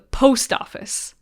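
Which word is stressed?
post. The stress falls on the word post. This is how most people say it. "with the emphasis on post"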